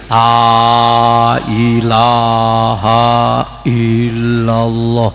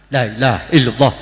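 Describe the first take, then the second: First: It is said slowly, long vowels drawn out. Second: It is said quickly, long vowels clipped short. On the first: The speaker calls it right. "Begini mestinya" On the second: The speaker calls it wrong. "terlalu cepat itu, matnya nggak kedengeran"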